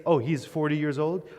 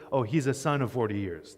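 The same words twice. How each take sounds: First: Said in the usual way. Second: "son of forty years" said a little lower and softer as the idiom; softly marked Hebrew idiom; Hebrew idiom example. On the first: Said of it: "Instead of saying". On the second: Shown as a demonstration. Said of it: "that's how they say it in Hebrew".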